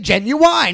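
The word is said with a Southern pronunciation. It copies how people in Texas say it. "But they say genuine. Like, I mean, it's the South"

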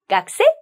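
The voice rises at the end. It asks whether someone is a student. "끝에를 올려만 읽으시면 돼요"

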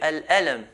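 The q sound is dropped and replaced by a catch. This is how the Levant area says it. "They change the qaf into an alif"

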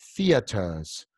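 A British accent, strong t and soft r. "En Inglaterra se va a decir theaters, theaters. Una T fuerte y una R suave"

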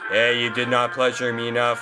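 It is said in a robotic put-on voice. The speaker calls it right.

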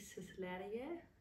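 It is pronounced the way Danish would say it. "I think proper would be Sysleriget"

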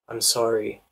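The voice falls at the end. "if you have a flat or a falling intonation, it can come across as, you know, you're grieving for them"

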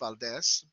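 The name is given a Spanish pronunciation. "for those of you who are Spanish speaking, it's Valdez"

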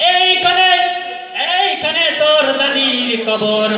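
It is spoken in a put-on preacher's style. "এবার আসছে একজন এলাকার ইমাম সাহেব"

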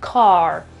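The word ends with an audible R sound. "nella pronuncia dell'inglese americano, la lingua si deve sollevare"

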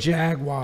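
It is said with an American pronunciation. This is how people in the US say it. "We say"

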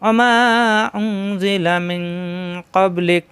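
The recitation stops after the final word. "এখানে যদি আমরা থামি ... থামলাম"

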